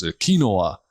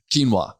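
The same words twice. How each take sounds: First: "Quinoa" said as kin-OH-ah, on purpose; deliberate mispronunciation. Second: "Quinoa" said as KEEN-wah; correct pronunciation. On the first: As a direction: say "Quinoa" as kee-NO-uh, wrong on purpose. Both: Shown as a demonstration. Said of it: "I'm gonna pronounce it improperly on purpose".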